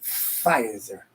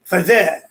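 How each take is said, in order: First: Said in the usual way. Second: Pfizer said like "fah-zeh", French style. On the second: Shown as a demonstration. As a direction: drop the r, stress the end: Pfizer as "fa-ZEH". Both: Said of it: "Sounds kind of French".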